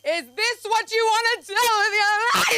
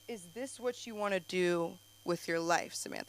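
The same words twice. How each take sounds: First: It is said imitating the mom's voice. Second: It is said in a plain voice.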